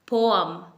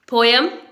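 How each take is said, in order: First: The middle sound is a short 'uh'. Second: The middle sound is a 'yeh' glide. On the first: The speaker calls it right. "यहाँ पर अ sound है बीच में।" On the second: The speaker calls it wrong. "But ये wrong pronunciation है।"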